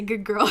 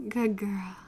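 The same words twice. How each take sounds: First: Said in the usual way. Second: Put-on praising good girl. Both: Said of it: "Say good girl again, please".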